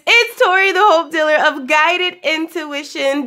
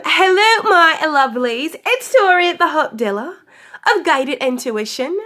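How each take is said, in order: First: Said in the usual way. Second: A hammed-up, raised-pitch London accent; a playful, bad London accent, pitched up on hello; mock London accent. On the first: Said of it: "I'm just playing". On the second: Vlogger greeting her love muffins in a jokey London accent. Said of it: "doing a horrible job at an England accent".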